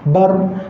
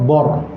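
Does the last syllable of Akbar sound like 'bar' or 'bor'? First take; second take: bar; bor. First: The syllable is said thin, with an open vowel. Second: The syllable is said thick, with a rounded vowel. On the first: The speaker calls it right. "jangan baca bor" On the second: The speaker calls it wrong. "Ba tu sepatutnya nipis, tapi kita baca ra tebal"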